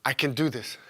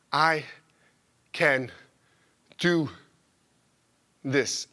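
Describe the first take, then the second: First: Said in the usual way. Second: "I can do this" with a pause after every word; slow, word by word. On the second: Pretend. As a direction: space each word apart, deliberate. Says it word by word.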